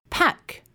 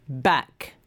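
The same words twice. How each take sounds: First: "Pack" with a puffed P, higher pitch; unvoiced P demo. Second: "back" with B, lower pitch; voiced B demo. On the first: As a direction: release air clearly to start "Pack". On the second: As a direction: start "back" without a puff of air. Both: Shown as a demonstration. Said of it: "comparing the sounds in these".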